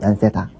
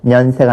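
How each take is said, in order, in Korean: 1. 이 단어는 모음 소리로 시작해요. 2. 이 단어는 n 소리로 시작해요.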